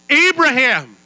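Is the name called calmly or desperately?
desperately. The name is called out desperately.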